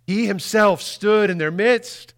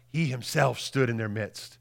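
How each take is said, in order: First: He himself stood in their midst, slow, higher and louder, himself rising; slow emphatic repeat. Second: Said in the usual way. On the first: Shown as a demonstration. Preacher repeating the verse for the congregation, slow and emphatic. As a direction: lean on himself and draw it out slowly.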